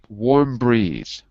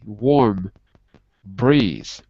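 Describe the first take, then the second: First: The words run together without any break. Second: There is a small break between the words. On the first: The speaker calls it right. "We put them together without a pause, no break" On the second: The speaker calls it wrong. "We don't say"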